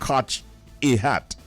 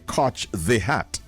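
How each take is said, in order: First: It is said in Jamaican Patois. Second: It is said in standard English.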